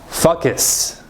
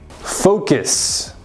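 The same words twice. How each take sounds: First: The first vowel is an 'ah' sound. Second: The first vowel is an 'oh' sound. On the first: The speaker calls it wrong. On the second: The speaker calls it right. "make sure you say the vowel sounds correctly"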